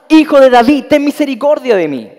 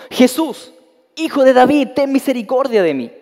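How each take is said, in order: First: Full-voiced desperate yell, much louder and higher; shouting even more. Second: Raised, pleading call to Jesus, higher and louder; shout for mercy. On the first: Rebuked blind beggar cries out even harder to Jesus, desperate full shout. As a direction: shout over everyone hushing you. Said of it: "Pero él gritaba mucho más". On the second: Blind beggar by the road calls to Jesus, pleading shout. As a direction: call out across the crowd for mercy. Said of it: "Entonces gritó diciendo". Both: A narrator's reading.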